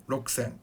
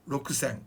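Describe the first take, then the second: Both takes have the same delivery.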